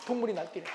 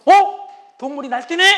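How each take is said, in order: First: Muttered to self. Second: High amused sneer; inner mockery. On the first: Retold or imitated. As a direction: mumble it privately. (혼잣말로 낮게 중얼거림) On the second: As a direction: scoff inwardly at the raging animal. (속으로 비웃는 남편) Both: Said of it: "마음속으로".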